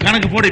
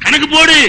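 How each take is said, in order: First: Said in the usual way. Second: Higher, insistent preacher's challenge; forceful demand. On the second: Real, not acted. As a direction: throw it out as a firm command. Challenge repeated forcefully at the husband. (அழுத்தமான, அதட்டும் சவால்)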